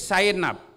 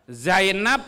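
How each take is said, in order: First: The word begins with an 's' sound. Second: The word begins with a 'z' sound. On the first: "Zainab menjadi Sainab" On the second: "Zainab menjadi Sainab"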